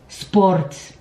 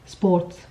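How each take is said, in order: First: The consonants are heavily overpronounced. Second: The consonants are pronounced softly. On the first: The speaker calls it wrong. "a Cypriot would probably say" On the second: The speaker calls it right. "the correct pronunciation is"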